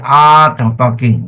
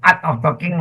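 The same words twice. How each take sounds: First: The first vowel is drawn out long. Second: The first vowel is clipped short. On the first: The speaker calls it right. "So you drag your A a little bit" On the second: The speaker calls it wrong. "You don't say art of talking lah"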